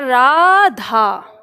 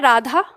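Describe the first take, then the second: First: The final vowel is drawn out long. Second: The final vowel has its normal length. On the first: Someone is being called out to by name. "तो खींच के बोला जाएगा" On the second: The name is simply mentioned in speech. "जैसे हम बोल रहे हैं"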